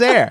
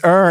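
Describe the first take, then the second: First: The word rhymes with 'hair'. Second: The word rhymes with 'her'. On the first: "everyone says air" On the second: "I believe it's er"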